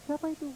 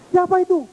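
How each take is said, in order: First: Same call, much softer, far off; faint echo. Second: High startled call, louder. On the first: Echo answering the boy, distant and faint. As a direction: let it come back like an echo. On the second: Little boy calling to the unseen voice, startled shout. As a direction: shout into the empty hills. Scared boy calls into hills. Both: Pretend.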